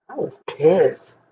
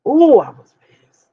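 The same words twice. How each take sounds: First: Said in the usual way. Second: A loud, breathy burst of real anger; emphatic outburst. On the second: Real, not acted. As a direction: let the anger burst out, louder and higher.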